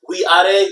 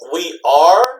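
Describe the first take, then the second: First: The final e of 'are' is pronounced. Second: The final e of 'are' is silent. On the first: The speaker calls it wrong. "don't say we are" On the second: The speaker calls it right. "all these e's are silent"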